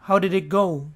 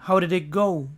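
No difference in how they are said.

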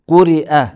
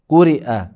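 Both takes have the same delivery.

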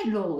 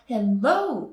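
First: The stress is on the first syllable. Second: The stress is on the second syllable. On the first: "ここにアクセントがもし、hello だったらね" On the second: "hello で後ろ側にアクセントがついてる"

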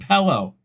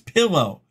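First: The first vowel sounds like the vowel in 'hell'. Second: The first vowel sounds like the vowel in 'pill'. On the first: The speaker calls it wrong. "you're saying pillow" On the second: The speaker calls it right. "It's pillow"

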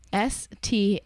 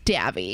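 First: The letters and name are said slowly and separately. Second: The letters and name run together quickly as one.

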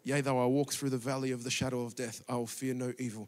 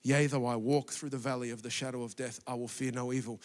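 First: It is muttered quietly under the breath. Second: The same.

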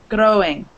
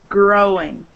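First: The R is rolled with a tongue tap. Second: The R is smooth with no tongue tap. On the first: The speaker calls it wrong. "it was the same problem with your R. You're saying growing" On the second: The speaker calls it right. "But it should be growing"

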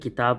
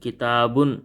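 First: The word ends abruptly on the final b. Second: The word ends with a full -un syllable. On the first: This is the everyday spoken form. "వాడుక భాషలో అయితే వాటిని కితాబ్ అని" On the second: This is the complete form used when learning. "నేర్చుకునేటప్పుడు ఆ యొక్క పదాన్ని పూర్తిగా ఉచ్చరించాలి"

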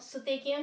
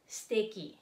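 First: The vowel after the first s is clearly voiced. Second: The vowel after the first s is dropped. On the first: "suteki ang sulat" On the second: "pero ang pronunciation niya ay steki"

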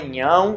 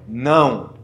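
First: The word starts with an ny sound. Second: The word starts with a plain n sound. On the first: The speaker calls it wrong. "mencionaram que falavam nhão, mas não é nhão" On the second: The speaker calls it right. "é não"

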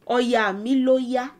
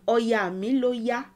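Both takes have the same delivery.

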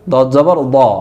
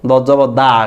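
First: The final vowel is short, without the 'aa' sound. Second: The final vowel is pronounced like Bengali 'aa'. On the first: The speaker calls it right. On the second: The speaker calls it wrong.

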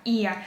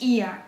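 First: The stress falls on the first i. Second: The stress falls on the first i.

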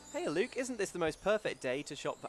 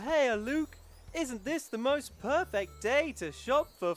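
First: It is read in the speaker's normal voice. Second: It is read in a put-on character voice.

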